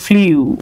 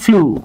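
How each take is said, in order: First: A 'y' glide comes before the vowel. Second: No 'y' glide comes before the vowel. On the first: The speaker calls it wrong. "আমরা পড়ে আসছি এটাকে ফ্লিউ ... তারা ভুল" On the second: The speaker calls it right. "আসলে এটার উচ্চারণ হচ্ছে ফ্লু"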